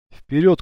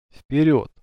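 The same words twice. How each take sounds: First: ВПЕРЁД as a short order, higher and rising; brief command. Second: ВПЕРЁД said dryly, falling at the end; dry reply. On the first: Leader returning from the woods to his companions, brief command. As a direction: command ВПЕРЁД briskly, lifting the pitch. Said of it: "коротко скомандовал он". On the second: Leader answering his companion's question about the way, dry. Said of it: "сухо ответил Паша". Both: A narrator's reading.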